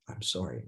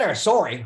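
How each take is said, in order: First: It sounds sincere and remorseful. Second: It sounds impatient and dismissive. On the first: The speaker truly regrets the hurt caused. The speaker calls it right. "I'm going to illustrate what you need to say" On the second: The speaker wants the matter closed without further remorse. The speaker calls it wrong. "it's more about the tone, because you see, it's not, it's not, well, I said"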